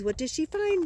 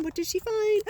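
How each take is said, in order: First: Said in the usual way. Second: Much higher excited question. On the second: Acted. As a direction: pitch jumps up high on the repeat.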